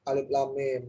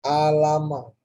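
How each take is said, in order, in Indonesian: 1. Setiap nama huruf diucapkan terpisah. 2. Hurufnya digabung menjadi satu kata pendek. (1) "kalau di surah Al-Baqarah alif lam mim" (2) "orang yang nggak biasa atau jarang membaca Al-Quran, dia pasti akan membaca ini alama"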